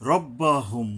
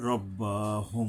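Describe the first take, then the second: First: রব্বাহুম with a short ro, not রাব্বা. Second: রব্বাহুম slow, ending on a nasal hummed mim; ghunnah on mim. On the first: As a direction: say রব্বাহুম with a clipped ro. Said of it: "রাব্বা নয়". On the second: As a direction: hold the final মি of রব্বাহুম through the nose. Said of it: "মিমের উপরে এখানে একটা গুণনা করতে হবে". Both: Shown as a demonstration.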